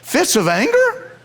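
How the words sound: It is said as a question, rising.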